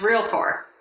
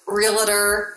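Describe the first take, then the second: First: The word is said the recommended way. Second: The word is said the commonly heard way. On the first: The speaker calls it right. "but it's realtor" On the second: The speaker calls it wrong. "people, they always pronounce it realtor"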